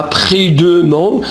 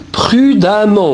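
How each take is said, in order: First: "prudemment" with a schwa, pru-de-ment; wrong pronunciation. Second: "prudemment" with an a sound, pru-da-ment; correct pronunciation. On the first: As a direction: say the emm of "prudemment" as "euh-m". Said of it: "On ne dit pas prudemment". (« prudemment » prononcé avec un e muet : pru-de-ment) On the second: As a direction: say the emm of "prudemment" as "am". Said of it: "faites attention à la prononciation". (« prudemment » prononcé avec un a : pru-da-ment) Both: Shown as a demonstration.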